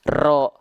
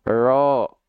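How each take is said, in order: First: The r is lightly but clearly trilled. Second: The r has no trill at all. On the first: The speaker calls it right. "tidak berlebihan" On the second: The speaker calls it wrong. "getaran huruf ro malah jadi hilang. Seperti kayak orang bule"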